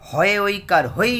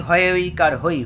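First: Slow spelling. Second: Said in the usual way. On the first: Shown as a demonstration.

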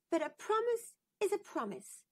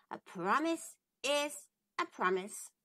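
First: Much higher, insistent little princess; a princess holding her mother to her word. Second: Frog's voice. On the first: Princess reminds the queen, in a high insistent voice. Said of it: "said the princess". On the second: The frog reminds the princess, calm and steady. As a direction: gently hold her to her word. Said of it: "said Frog". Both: Acted.

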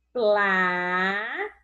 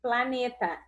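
First: "Planeta" slowly broken into pla, ne, ta with long pauses; separado em sílabas. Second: Said in the usual way. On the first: Shown as a demonstration. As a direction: stretch each syllable of "Planeta" on its own. ("Planeta" pausado, sílaba por sílaba) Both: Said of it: "Vamos separar?".

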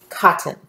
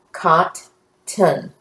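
First: Said in the usual way. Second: "Cot-ton" in two separate syllables, pause between; broken into syllables. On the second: Shown as a demonstration. Teacher breaking up a word for the class, "Cot-ton" syllable by syllable. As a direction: say "Cot-ton" split, each syllable fully sounded. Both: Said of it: "we're gonna break them up".

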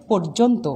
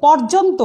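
First: পর্যন্ত as "porjonto"; closed "o" in first syllable of পর্যন্ত; correct spoken vowel. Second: পর্যন্ত as "pawrjonto", higher; as-written vowel. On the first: Teacher models pronunciation, পর্যন্ত with closed "o". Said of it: "উচ্চারণ হবে". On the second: Teacher reads the spelling, পর্যন্ত with open "aw". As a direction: open "aw" in first syllable of পর্যন্ত. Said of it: "লিখছি". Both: Shown as a demonstration.

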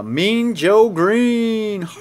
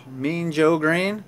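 First: Drawn-out, higher and slow reveal; excited announcement. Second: Said in the usual way. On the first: Real, not acted. Opening a pack on camera, he announces the card in a slow drawn-out voice. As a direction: stretch out the name like a big reveal.

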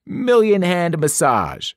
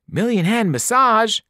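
First: Slow showy sales pitch; salesman pitch. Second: "Million hand massage" pitched much higher, thrilled; excited cry. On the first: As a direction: present the bed like a salesman. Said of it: "Krusty told us". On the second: Boy diving onto the bed, thrilled cry. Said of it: "Grover cried and dove in". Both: A narrator's reading.

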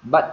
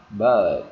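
First: "but" with a short vowel and crisp final T. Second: Teacher's loud long-vowel demo of "But", ending in D; lengthened vowel. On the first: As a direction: demonstrate "but" with no lengthening. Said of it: "chúng ta đọc ngắn". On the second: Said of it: "chúng ta kéo dài ra". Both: Shown as a demonstration.

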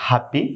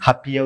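First: "হ্যাপি" ending in "pi"; y said as short i in "হ্যাপি"; correct happy pronunciation. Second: "হাপিয়া" with an added "ya" ending; three-syllable "হাপিয়া"; mispronounced happy. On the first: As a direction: say "হ্যাপি" as two syllables. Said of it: "সঠিক উচ্চারণ করতে হবে". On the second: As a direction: say happy wrongly as ha-pi-ya. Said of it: "উচ্চারণ হবে না". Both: Shown as a demonstration.

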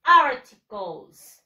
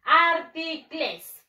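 First: Articles said the English way, AR-ti-kols, slow and loud; careful English articles, stretched out and stressed; English pronunciation. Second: Articles read as spelled, ar-ti-cles with a clear e sound; spell-reading articles for the class; as it is written. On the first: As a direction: model articles slowly and loudly for the class to copy. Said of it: "La pronunciación es". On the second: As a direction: read articles off the page the Spanish way, letter by letter. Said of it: "Se escribe". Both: Shown as a demonstration.

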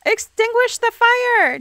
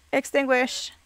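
First: High, loud, slow command; frustrated player shouting at the screen; alarmed shout. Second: Said in the usual way. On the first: Real, not acted. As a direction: yell it at the sim. Shouted order during the fire.

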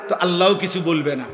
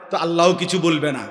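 No difference in how they are said.

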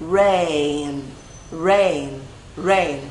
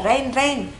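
First: Low, drawn-out "Rain" with English r; correct pronunciation. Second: "rain" as short "ren" with z-like r; common mispronunciation. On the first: Teacher models "Rain" for learners, English r and full glide. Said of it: "Mình sẽ là e và âm r". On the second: Teacher mimics learners' mistake, "rain" as short "zen". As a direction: say "rain" without the glide, like "zen". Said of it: "mọi người hay đọc là". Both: Shown as a demonstration.

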